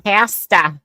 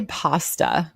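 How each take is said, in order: First: Loud, high "Pasta" as PASS-tuh; mock "Pasta" with a flat short A; "Pasta" with the A of cat, pitched up; mocked pronunciation. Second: "pasta" drawn out with open AH; "pasta" with a long father-like A; corrected pronunciation. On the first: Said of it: "fun of someone's accent". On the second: Shown as a demonstration. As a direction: say "pasta" slowly as PAH-stuh. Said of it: "Say pasta".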